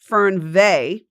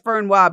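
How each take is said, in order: First: The word ends with a 'vay' sound. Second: The word ends with a 'wa' sound. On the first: The speaker calls it right. "it's pronounced Fernweh" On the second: The speaker calls it wrong. "it says Fernwa"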